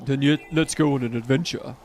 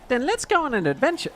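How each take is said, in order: First: It is said in a deep, manly voice. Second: It is said in an ordinary voice.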